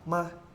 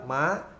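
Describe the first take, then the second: First: It is said with the neutral tone. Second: It is said with the second tone. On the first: "Terus nada netral" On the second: "nada dua"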